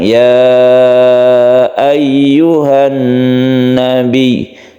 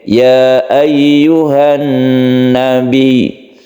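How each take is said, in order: First: The vowel of 'ya' is held long. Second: The vowel of 'ya' is held short.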